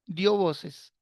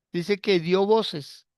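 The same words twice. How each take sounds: First: Said in the usual way. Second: "dio voces" drawn out slowly, each word weighted; slow emphasis. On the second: Shown as a demonstration. ("dio voces" lento y enfático)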